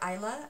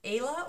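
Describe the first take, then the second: First: The name begins with an 'eye' sound. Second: The name begins with an 'ay' sound. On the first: This is how the person herself says the name. "I think she pronounces it Isla" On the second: This is how the speaker has always imagined the name. "I've always heard it in my head as Ayla"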